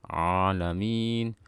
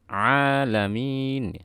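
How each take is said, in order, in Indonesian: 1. Bunyi ain di awal lemah dan kabur. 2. Bunyi ain di awal tegas dan jelas. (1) "ainnya mengambang seperti ini" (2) "A harus jelas"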